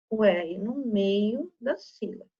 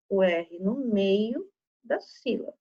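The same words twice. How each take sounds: The two takes are said the same way.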